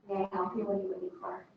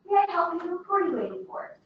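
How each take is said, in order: First: The speaker sounds uninterested and uncaring. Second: The speaker sounds warm and welcoming.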